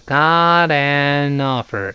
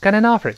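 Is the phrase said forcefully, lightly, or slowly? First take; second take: slowly; lightly. First: It is said slowly, each word apart. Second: It is said lightly, words run together smoothly. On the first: "如果读慢就是got an offer" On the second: "一带过"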